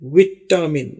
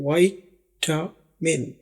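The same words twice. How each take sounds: First: The word is said in a British accent. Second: The word is said in an American accent. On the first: "British English में, जो UK की English है, ... उसमें इसको विटामिन बोलते हैं।" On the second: "American English में इसको विटामिन बोलते हैं।"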